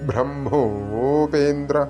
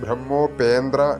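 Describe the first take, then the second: First: The m is said before the h. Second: The m is said after the h. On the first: The speaker calls it right. "മാ plus ഹായാണ് ഉച്ചരിക്കേണ്ടത്" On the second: The speaker calls it wrong. "അതല്ലാതെ ബ്രഹ്മോപേന്ദ്ര എന്ന് ഉച്ചരിച്ചു പോകരുത്"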